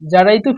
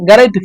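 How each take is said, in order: First: The word starts with a j sound. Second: The word starts with a hard g sound.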